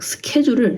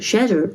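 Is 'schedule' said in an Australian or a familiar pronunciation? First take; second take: familiar; Australian. First: It is said in the familiar pronunciation. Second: It is said in an Australian pronunciation.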